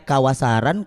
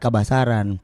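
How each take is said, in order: First: The middle consonant is a w sound. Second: The middle consonant is a b sound. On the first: This is the original spelling. "ejaan asli itu kawasaran" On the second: This is a regional pronunciation. "menyebutnya W itu jadi B"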